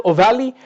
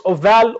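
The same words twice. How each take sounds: First: OVALE as "oh-VAL-ee", final E sounded; alternative pronunciation. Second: OVALE as "oh-VAL", final E silent; alternative pronunciation. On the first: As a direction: add an "ee" to the end of "ovale". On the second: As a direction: stop "ovale" right on the L. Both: Shown as a demonstration. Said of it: "Some people pronounce this as like ovale".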